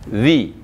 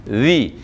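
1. Ujung lidah menyentuh gigi atas. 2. Ujung lidah menyentuh gigi atas.

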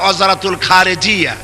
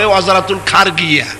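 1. শেষ শব্দে 'j' ধ্বনি আছে। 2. শেষ শব্দে 'g' ধ্বনি আছে। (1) "আরবিতে বলা হয় ওয়াজারাতুল খারেজিয়া" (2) "জিম গ দিয়ে উচ্চারণ করে"

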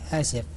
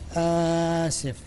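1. تبدأ الكلمة بعد توقف صامت. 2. يُمَدّ صوت في الكلمة مدًا طويلًا. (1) "كلمة آسف في الوقفية" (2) "مشكلة في الاستطالة"

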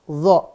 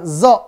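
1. Diawali dengan bunyi dh yang tebal. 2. Diawali dengan bunyi z. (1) "maka ini dha bunyinya" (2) "Jangan zo"

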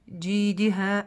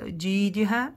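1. Все гласные произносятся кратко. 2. Все гласные произносятся кратко.

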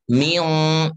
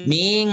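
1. Bunyi sengaunya tebal dan panjang. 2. Bunyi sengaunya tipis dan pendek. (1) "harus dibaca dengan gunah yang dipanjangkan dan itu tebal gunahnya" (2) "Jangan ming"

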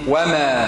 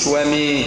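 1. الحركة الأخيرة فتحة مفتوحة واضحة 'a'. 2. الحركة الأخيرة تميل إلى صوت 'ee'. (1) "حركة تصاعدية فوقية فتحة" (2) "ما قلش ومي"

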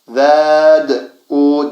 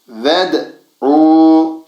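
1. v'den sonraki ünlü uzatılarak okunur. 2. Ünlü kısadır, doğrudan d'ye geçilir. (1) "Ved'u yani şu olmaz. Ved'u denmez" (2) "ved'u şeklinde okunur"

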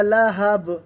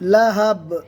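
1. শব্দটি শেষ হয় খালি b ধ্বনি দিয়ে। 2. শব্দটি শেষ হয় খালি b ধ্বনি দিয়ে।

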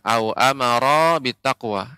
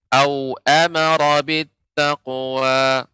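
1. Vokal setelah r dibaca panjang. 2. Vokal setelah r dibaca pendek. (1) "Au amaronya ini kepanjangan, bukan" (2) "akan tapi ronya pendek"

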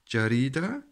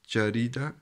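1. Die mittlere Silbe klingt wie 'ri'. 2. Die mittlere Silbe klingt wie 'ri'.

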